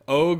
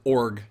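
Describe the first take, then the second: First: The R sound after the vowel is dropped. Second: The R sound after the vowel is pronounced. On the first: The speaker calls it wrong. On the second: The speaker calls it right.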